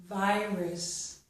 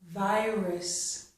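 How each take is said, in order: The two takes are said the same way.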